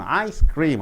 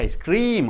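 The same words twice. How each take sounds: First: The stress falls on the word ice. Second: The stress falls on the word cream. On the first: The speaker calls it right. "I should be stressed more" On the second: The speaker calls it wrong. "You don't say ice cream"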